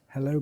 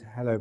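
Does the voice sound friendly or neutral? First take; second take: friendly; neutral. First: The greeting is said in a warm, friendly tone. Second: The greeting is said in a flat, neutral tone. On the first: "or a friendly voice" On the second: "in a neutral voice"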